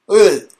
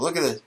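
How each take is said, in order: First: Higher, louder look at this; loud call to look. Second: Said in the usual way. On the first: Acted. Host calling viewers to look, loud and high. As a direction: call out like pointing at the photo.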